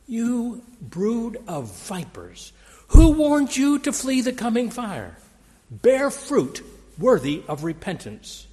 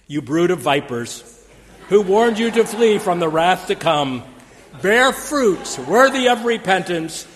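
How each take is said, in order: First: Slow, higher sneer that turns louder and higher on the second line; contemptuous prophet scorning the powerful. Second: Mock-fiery prophet quoted on a greeting card; proclaiming prophet. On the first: Retold or imitated. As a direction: sneer down at the establishment. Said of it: "John sneered". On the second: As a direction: thunder it like a desert preacher. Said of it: "in the words of John the Baptist".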